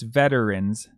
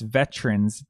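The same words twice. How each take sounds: First: The word is said with three syllables. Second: The word is said with two syllables. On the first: "or three syllables" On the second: "You can pronounce it with two syllables"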